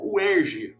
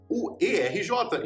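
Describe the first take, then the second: First: It is said as a single word. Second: It is spelled out letter by letter. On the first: It breaks from the pattern of a similar name. "e não U E R J" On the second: It follows the same pattern as a similar name. "se é U F R J, então tem que ser U E R J"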